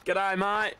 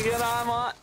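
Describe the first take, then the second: First: Said in the usual way. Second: Higher mock-Australian "g'day, mate"; a hammed-up Aussie "g'day, mate"; cheerful higher Australian "g'day, mate". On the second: Greets viewer Aussie style.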